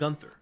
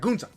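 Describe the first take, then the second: First: The name is said with an English pronunciation. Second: The name is said with a German pronunciation. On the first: The speaker calls it wrong. "why are you still saying Gunther?" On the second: The speaker calls it right. "in German, it's like Gunta"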